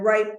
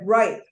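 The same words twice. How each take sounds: First: "ripe" drawn out slowly and leaned on; stress on ripe. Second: "ripe" punched louder with a falling tune; stress on ripe. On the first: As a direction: linger on the word "ripe". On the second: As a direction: hit "ripe" hard and let it drop. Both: Shown as a demonstration. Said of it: "not just red".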